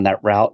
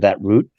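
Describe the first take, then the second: First: Route is said in an American way. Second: Route is said in a non-American way. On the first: "shout out to America by saying" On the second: "instead of"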